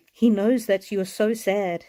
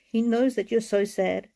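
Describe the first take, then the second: No difference in how they are said.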